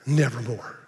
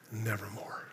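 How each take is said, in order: First: A low, dark croak of an answer; the raven's low, final reply. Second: A faint, breathless whisper, much softer; the raven's last hopeless whisper. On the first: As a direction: speak as the ominous raven, pitched lower. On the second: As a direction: let the raven's answer die to a hush. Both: Acted. Raven answers the grieving poet.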